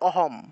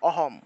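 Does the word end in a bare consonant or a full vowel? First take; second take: bare consonant; bare consonant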